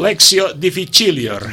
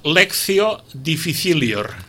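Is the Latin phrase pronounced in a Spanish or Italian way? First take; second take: Italian; Spanish. First: The phrase is said with Italian-style pronunciation. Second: The phrase is said with Spanish-style pronunciation. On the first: "Veus com en italià tot sona més bonic" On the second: "Amb pronunciació castellana"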